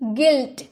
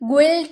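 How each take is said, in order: First: The word begins with a plain 'g' sound. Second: The word begins with a 'gu' sound. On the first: The speaker calls it right. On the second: The speaker calls it wrong.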